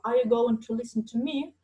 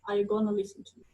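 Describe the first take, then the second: First: The phrase has the full form going to. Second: The phrase has the reduced form gonna. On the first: "They don't say going to" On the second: "they say gonna"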